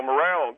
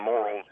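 First: "morale" with stress on the second syllable; wrong word stressed on the end. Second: "morals" with stress on the first syllable; corrected word stressed up front. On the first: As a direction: say "morale" as muh-RAL. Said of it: "not, not morale, I mean morals". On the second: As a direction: say "morals" as MOR-uls. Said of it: "I mean morals". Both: Shown as a demonstration.

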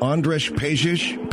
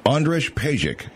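First: "Andres Pejic" slowly, final sound as "sh", rising as a question; unsure pronunciation. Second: "Andres Pejic" slowly, ending on a hard "k", falling; settled pronunciation. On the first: Host guessing a model's name, "Andres Pejic" said slowly, questioningly. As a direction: try "Andres Pejic" tentatively as "ON-drish PAY-zhish". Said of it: "how do you pronounce this guy's name". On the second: Host giving the checked name, "Andres Pejic" slow and falling. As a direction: state "Andres Pejic" firmly as "ON-drish PAY-zhick". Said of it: "how do you pronounce his name".

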